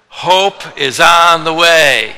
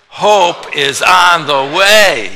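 First: It is said plainly, without special feeling. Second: It is said with urgent, relieved excitement.

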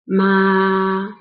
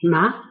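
First: The pitch stays high and level throughout. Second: The pitch starts mid and rises to high. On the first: It means mother. "ma is a flat tone. There's no change when you speak it" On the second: It means a numbing seasoning. "It's a rising tone, so you start with middle level at 3, and then you rise it to 5"

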